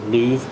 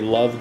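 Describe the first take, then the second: First: The name is pronounced with its Swedish vowel. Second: The name is pronounced like the English word love. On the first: "the Swedish pronounce it Luv" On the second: "In the English-speaking world, we might say Love Giger because it's spelt that way"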